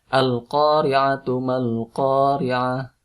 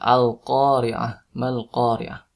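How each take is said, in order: First: The first word runs on with its ending voiced. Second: The first word stops, dropping its ending. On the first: "kalau misalkan diwasal atau dilanjut bacanya, huruf belakangnya dibaca" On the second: "Kalau tidak diteruskan, ya, cukup diwaqaf"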